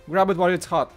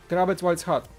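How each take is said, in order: Both takes have the same delivery.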